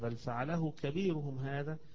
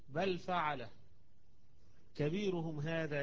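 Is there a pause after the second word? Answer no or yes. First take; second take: no; yes. First: The phrase runs on without a pause. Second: There is a pause after the second word. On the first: The biggest idol did it. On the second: Someone did it; the biggest idol is only named after.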